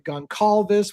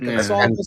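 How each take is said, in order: First: The middle consonant is a hard k sound. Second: The middle consonant is a soft s sound.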